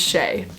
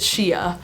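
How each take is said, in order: First: The name is said as 'shay', rhyming with 'day'. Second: The name is not said as 'shay'. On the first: The speaker calls it right. "it's Shay" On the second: The speaker calls it wrong. "a lot of people pronounce it Shea"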